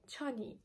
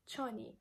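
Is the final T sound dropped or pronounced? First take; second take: dropped; dropped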